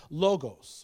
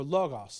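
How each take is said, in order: First: Logos as LOH-gohs; long-o pronunciation. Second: Logos as LAH-gahs; open-vowel pronunciation. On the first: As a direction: say logos with two long o's. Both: Shown as a demonstration. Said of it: "depending on how you wanna say it".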